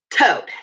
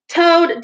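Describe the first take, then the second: First: A stern, level call of his name; severe. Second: Exasperated call. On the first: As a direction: address him gravely, like a disappointed elder. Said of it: "he said severely". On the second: Rat cuts in on boasting Toad. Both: A narrator's reading.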